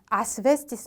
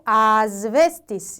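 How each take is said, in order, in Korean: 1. v 앞의 자음은 s 소리입니다. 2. v 앞의 자음은 z 소리입니다. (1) "아스베스티스 아니고" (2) "아스베스티스 이렇게 읽어야 돼요"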